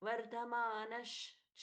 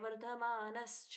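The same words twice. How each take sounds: First: The consonant before 'cha' is a palatal 'sh'. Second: The consonant before 'cha' is a plain 's'. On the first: The speaker calls it right. "ये श है, ये स नहीं है" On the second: The speaker calls it wrong. "नहीं"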